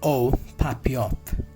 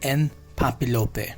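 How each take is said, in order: First: It is pronounced with French sounds. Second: It is pronounced with English-style spelling sounds. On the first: The speaker calls it right. "This is the French pronunciation" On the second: The speaker calls it wrong. "this is not the pronunciation"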